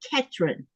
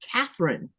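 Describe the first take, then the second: First: The middle consonant is a plain t sound. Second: The middle consonant is a th sound. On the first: "here they say Ketrin" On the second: "my given name is Catherine"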